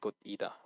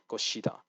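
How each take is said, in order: First: The middle consonant is a T-like sound. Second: The middle consonant is an S-like sound. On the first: The speaker calls it wrong. "he makes the mistake in this one as well, just calling it Gotida" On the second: The speaker calls it right. "being followed by Gosu, Gossen, Gose, like Goshida"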